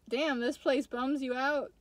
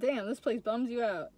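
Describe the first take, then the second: First: The voice rises at the end, like a question. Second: The voice falls at the end, like a statement. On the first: It asks whether the place bums the listener out. The speaker calls it wrong. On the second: It states that the place bums the listener out. The speaker calls it right.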